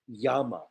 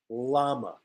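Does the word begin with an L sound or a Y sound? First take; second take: Y sound; L sound. First: The word begins with a Y sound. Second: The word begins with an L sound. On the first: The speaker calls it right. "In Spanish, double L is ya. So the correct pronunciation, I know, is llama" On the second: The speaker calls it wrong. "We pronounce this incorrectly. We say la, we say llama"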